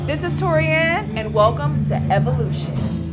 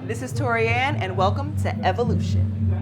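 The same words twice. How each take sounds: First: It is said at a louder volume. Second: It is said at a moderate volume. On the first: "A little louder" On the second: "That was great"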